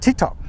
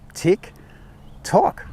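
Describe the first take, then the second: First: The two words are said quickly together. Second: The two words are spaced slowly apart. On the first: The speaker calls it wrong. "We don't go tick tock" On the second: The speaker calls it right. "That's pretty much normal speed"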